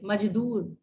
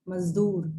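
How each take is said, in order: First: मजदूर with a hard j; without nukta. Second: मजदूर with a z sound; with nukta. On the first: Teacher shows students मजदूर without the nukta. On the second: Teacher shows students मजदूर with the nukta. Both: Shown as a demonstration. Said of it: "नुक्ता लग जाएगा".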